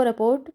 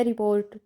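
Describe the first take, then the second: First: रिपोर्ट said as raport, with an a in the first syllable; रिपोर्ट with its first vowel changed to a; wrong pronunciation. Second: Said in the usual way. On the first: Shown as a demonstration. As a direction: say रिपोर्ट the mistaken way, rapot. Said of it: "इसको रिपोर्ट बोला जाता है". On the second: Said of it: "सही ज्ञान नहीं होने से".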